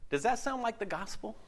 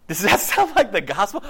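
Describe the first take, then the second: First: Said in the usual way. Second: The same question again, now much louder; louder repeat. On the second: Shown as a demonstration. Preacher repeating his challenge, louder. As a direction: press the question home to the congregation, louder.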